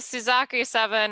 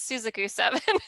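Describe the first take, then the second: First: The name is said with an American pronunciation. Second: The name is said with a Japanese pronunciation. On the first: "the Americanized version" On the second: "the Japanese version"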